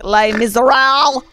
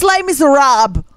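First: "Les Miserables" said as lay-mizzer-AL, ending in an L; mispronounced French title. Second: "Les Miserables" higher, as lay-mizzer-AHB; corrected French pronunciation. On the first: Disliking musicals to co-hosts, "Les Miserables" mispronounced as lay-mizzer-al. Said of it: "Les Mis a what?". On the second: Trying the correction on co-hosts, "Les Miserables" as lay-mizzer-ahb. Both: Real, not acted.

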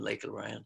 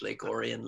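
First: Orion as oh-RY-un; variant pronunciation. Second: Orion as OR-ee-un; variant pronunciation. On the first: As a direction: say Orion like the constellation, "oh-RY-un". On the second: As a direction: say Orion with the stress up front, "OR-ee-un". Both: Shown as a demonstration. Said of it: "We say it different ways".

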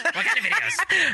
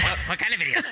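First: High, eager mocking imitation; eager mimic. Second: Teasing imitation. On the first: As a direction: squeal it like an excited perv. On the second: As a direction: echo the question slyly. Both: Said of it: "as soon as she said videos".

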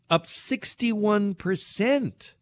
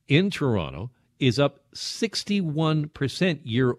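First: "sixty-one" drawn out slowly, pitched much higher; stress on SIXTY-ONE. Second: Said in the usual way. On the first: Real, not acted. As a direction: stretch "sixty-one percent" slow and high for shock. Repeats the figure for emphasis.

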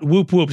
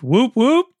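First: Said in the usual way. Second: Higher, rising "whoop, whoop"; questioning little whooping call; literal whoop. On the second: Shown as a demonstration. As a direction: sound it out like a real cheer. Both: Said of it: "literally, like".

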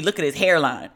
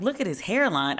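First: Friend's complaint, falling at the end; matter-of-fact acted protest; mock objection. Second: Mocking repeat of a complaint; acted baffled echo; incredulous echo. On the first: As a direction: imitate a friend pointing out a flaw. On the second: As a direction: throw the words back in disbelief. She echoes friend in disbelief.

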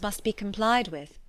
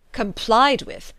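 First: Said in the usual way. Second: Slow, louder questioning echo; incredulous echo. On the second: A narrator's reading. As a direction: throw the phrase back in disbelief. Father echoes the phrase back scornfully.

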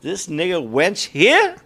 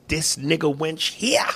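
First: Slow, half-hearted villain line; passionless line reading. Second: Slow, higher-pitched menace; threatening movie line. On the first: Acted. Co-host tries the villain's line, no passion in it. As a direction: read the threat slowly without conviction. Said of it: "there was no passion in it". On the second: Shown as a demonstration. Host shows co-host the villain's line, slow menace. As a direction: draw it out, rising on the last word. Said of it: "The scene is him threatening".

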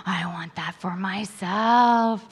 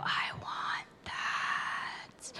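First: Said in the usual way. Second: Breathless slow whisper; whispered wish. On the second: Retold or imitated. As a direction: whisper it like a secret longing. Inner wish, hushed.

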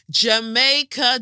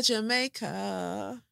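First: Sung, Jamaica loud and slow, falling. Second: Jamaica drawn out slowly with a rising end; Jamaica said in a Jamaican way. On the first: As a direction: call out "Jamaica" like a chant. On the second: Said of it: "in Jamaica". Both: Shown as a demonstration.

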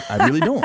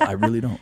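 First: Laughing through it; said with a laugh, louder. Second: Said in the usual way. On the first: Real, not acted.

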